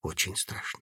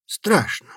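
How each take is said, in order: First: Barely audible confession; very quietly. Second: Said in the usual way. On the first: A narrator's reading. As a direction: say it almost silently. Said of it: "Добавил совсем тихо".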